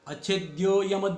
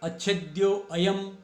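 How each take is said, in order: First: The vowel 'a' before 'yam' is dropped entirely. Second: The vowel 'a' before 'yam' is pronounced separately. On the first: The words are joined together. "जब एक साथ बोलेंगे उस समय अ नहीं बोलेंगे" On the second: The words are split apart. "पदच्छेद करते हुए कर सकते हैं"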